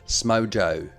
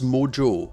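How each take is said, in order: First: It is said in an Australian accent. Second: It is said in the speaker's own accent.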